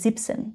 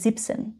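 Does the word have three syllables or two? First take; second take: two; two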